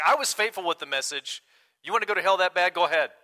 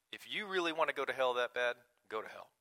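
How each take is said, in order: First: Louder, higher, mock-indignant: "You want to go to hell that bad? Go ahead."; hammed-up righteous fed-up preacher; self-righteous outburst. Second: Crass dismissal. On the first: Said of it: "a little bit of self-righteousness". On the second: Retold or imitated. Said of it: "I know this sounds crass".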